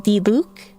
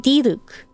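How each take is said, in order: First: The pitch rises on the second syllable. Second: The pitch rises on the first syllable, then falls. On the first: "they make the second intonation rise" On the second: "it's the first part that rises and then it descends"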